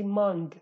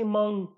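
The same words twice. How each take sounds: First: The final g sound is clearly pronounced. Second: It ends in a nasal sound without g. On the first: "if you read this in Hawleri accent, you would say mung" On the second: "In my accent, in Slemani accent... it becomes a nasal sound"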